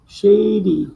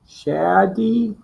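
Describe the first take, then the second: First: The first vowel is said long. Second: The first vowel is said short. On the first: "and then the long sound" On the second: "You're gonna do the short sound first"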